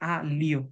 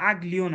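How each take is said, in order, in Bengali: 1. কঠিন g নেই; এরপর নরম তালব্য 'lyo' ধ্বনি আসে। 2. সাধারণ l-এর আগে কঠিন g উচ্চারিত হয়। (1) "জি এল এর পরে যদি ই থাকে লিও হবে" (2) "কিন্তু আগ লিও না"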